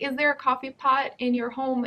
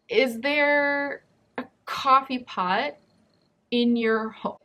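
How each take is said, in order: First: It is said smoothly at a normal pace. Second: It is said slowly with choppy breaks.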